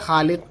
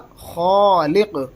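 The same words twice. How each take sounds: First: The first kh sound is light and thin. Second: The first kh sound is heavy and full. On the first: The speaker calls it wrong. "उमूमन बोला जाता है खालिक" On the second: The speaker calls it right. "बल्कि बोला जाएगा खालिक"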